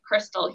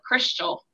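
First: It is said in a general American way. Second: It is said in a New Orleans way.

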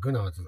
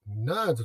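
First: The word starts with a G sound. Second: The word starts without a G sound. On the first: "私はついついグナーズと読んじゃうんですけども" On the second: "その発音しないG なのかもしれないんですが"

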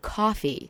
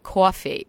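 First: The vowel is the standard American one. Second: The vowel is the New York one. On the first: This is the form a newsreader should use. The speaker calls it right. "she would correct me" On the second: This is how the mother herself really talks. The speaker calls it wrong. "but that's what you say"

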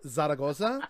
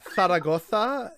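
First: The z sounds are said as plain s. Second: The z sounds are said as lispy th. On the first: This is not the way it is said in Spain. The speaker calls it wrong. "instead of Zaragoza" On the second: This is the way it is said in Spain. The speaker calls it right. "almost lispy"

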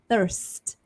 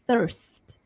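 Both takes have the same delivery.

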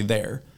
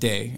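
First: The word ends with an R sound. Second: The word ends without an R sound.

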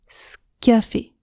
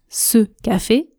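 First: The vowel of 'ce' is dropped entirely. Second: The vowel of 'ce' is pronounced in full. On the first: "Quand je parle vite, je prononce scafé" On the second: "Je ne prononce pas ce café"

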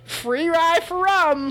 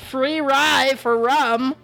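First: It is said quickly. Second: It is said at a normal pace.

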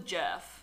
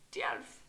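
First: The name begins with a hard J sound. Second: The name begins with a Y sound. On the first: The speaker calls it wrong. "It's not Matilda Jerf" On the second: The speaker calls it right. "In what Scandinavian language do you pronounce the J? Surely it has to be Matilda Jerf"

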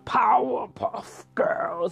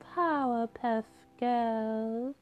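First: The voice is deep and masculine. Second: The voice is soft and sweet. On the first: The character is really angry. "he becomes a very more deep masculine voice" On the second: The character is in a calm mood. "he always talks in his sweet voice"

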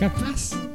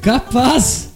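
First: It sounds disbelieving, as if calling it a lie. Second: It sounds purely astonished.

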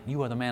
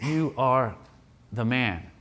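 First: It sounds like admiring praise. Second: It sounds like a grave accusation.

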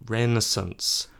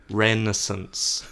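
No difference in how they are said.

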